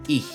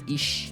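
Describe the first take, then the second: First: The final sound is breathed further back, without lips. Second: The final sound is a hushing sound at the front. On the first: The speaker calls it right. "Esse é o som do C H" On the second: The speaker calls it wrong. "tô falando com a ponta da... o sh tá na ponta da boca"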